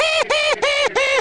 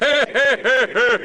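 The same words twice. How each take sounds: First: Very high-pitched cartoon bear chirps; high bear echo. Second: Said in the usual way. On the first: Another bear echoing green bear's call, very high-pitched. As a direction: repeat it in a squeaky little bear voice.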